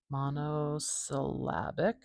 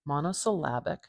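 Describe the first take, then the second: First: Slow, garbled "monosyllabic" with mangled syllables; a fumbled, drawn-out "monosyllabic"; botched word. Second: Clean, even "Monosyllabic" with every syllable clear; a tidy, correct "Monosyllabic"; corrected word. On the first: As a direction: stumble through "monosyllabic" very slowly. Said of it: "how did I do that so wrong". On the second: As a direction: say "Monosyllabic" properly and smoothly. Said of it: "That's more like it". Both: Shown as a demonstration.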